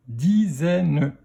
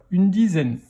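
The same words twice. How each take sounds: First: "dizaine" split into di, zè, ne; "dizaine" in three separate beats; syllable by syllable. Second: Said in the usual way. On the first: Shown as a demonstration. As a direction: sound out "dizaine" with a final ne. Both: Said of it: "dans quelle syllabe".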